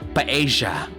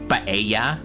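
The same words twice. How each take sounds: First: The double L sounds like an English J. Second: The double L sounds like an English Y. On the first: The speaker comes from another group of Spanish-speaking countries. "with a J" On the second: The speaker comes from one group of Spanish-speaking countries. "with a Y"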